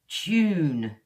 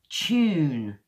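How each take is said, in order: First: It starts with a ch sound. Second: It starts with a ch sound.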